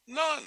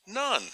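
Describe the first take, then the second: First: Laughing while saying None, higher. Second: Said in the usual way. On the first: Shown as a demonstration. Preacher repeating his answer None through a laugh.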